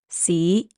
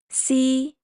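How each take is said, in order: First: The syllable is said in Cantonese tone two. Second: The syllable is said in Cantonese tone one. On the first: "Tone two" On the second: "Tone one"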